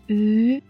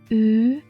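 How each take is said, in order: The two takes are said the same way.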